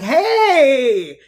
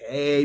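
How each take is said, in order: First: The greeting sounds excited and happy. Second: The greeting sounds sullen and unenthusiastic.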